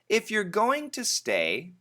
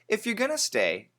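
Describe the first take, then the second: First: Going to is said fully and more slowly. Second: Going to is said fast, reduced to gonna.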